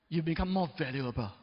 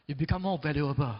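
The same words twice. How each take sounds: The two takes are said the same way.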